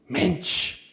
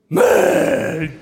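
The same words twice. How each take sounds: First: It is short and dismissive, stressing the vowel. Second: It is drawn out, the vowel shading toward ö. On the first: The speaker rejects some action. "Ein kurzes Mensch mit Betonung auf E und einer abweisenden Handbewegung ist Abneigung" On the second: The speaker is suddenly surprised. "ein langgezogenes Mensch, bei dem das E schon zum Ö neigt, die spontane Überraschung"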